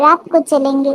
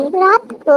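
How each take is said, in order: First: Said in the usual way. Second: Higher-pitched echo question on "रात को"; surprised question. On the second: Acted. Wife questions husband's night outing plan, surprised question. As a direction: repeat "रात को" as a puzzled, rising question.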